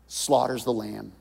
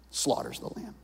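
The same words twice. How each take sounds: First: Said in the usual way. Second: Whispered repeat. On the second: Shown as a demonstration.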